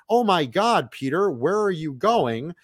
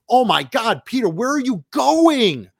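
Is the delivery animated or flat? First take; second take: flat; animated. First: The voice is flat and low in energy. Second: The voice is lively and full of energy. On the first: The speaker calls it wrong. "my arms aren't waving. I'm not animating my voice" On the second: The speaker calls it right. "You can hear the difference"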